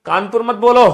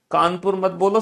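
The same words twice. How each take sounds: First: Kanpur मत बोलो called out louder and higher; firm loud correction. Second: Said in the usual way. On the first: Real, not acted. Teacher stopping students from saying the word, loud correction. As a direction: snap out Kanpur मत बोलो to stop the class.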